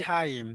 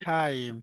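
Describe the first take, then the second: The two takes are said the same way.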